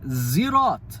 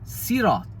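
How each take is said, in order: First: It begins with a buzzing z sound. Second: It begins with a light, plain s sound. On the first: "Zirat doesn't sound Arabic at all. It sounds like someone with a really bad accent" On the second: "would say Sirat with a sin"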